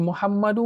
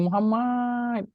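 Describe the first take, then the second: First: "Muhammadu" called high, ending on a long u; calling with added waw. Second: "Muhammad" high, last a stretched before the d; wrong drawn-out call. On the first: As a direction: stretch the final u of "Muhammadu" as a call. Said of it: "supaya dia boleh jerit nama kita". (memanggil "Muhammadu", hujungnya u panjang) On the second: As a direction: call "Muhammad" with a long final a, no added u. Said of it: "dia tak panjangkan". (seruan "Muhammad" dengan a akhir dipanjangkan) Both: Shown as a demonstration.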